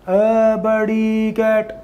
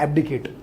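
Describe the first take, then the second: First: The word is said slowly, syllable by syllable. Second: The word is said at normal speed.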